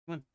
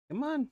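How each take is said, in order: First: Said in the usual way. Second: Much higher pleading come on; high coaxing call. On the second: Real, not acted. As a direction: coax it high and bright. Coaxing repeated takes.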